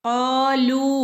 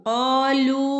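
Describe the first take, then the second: Both takes have the same delivery.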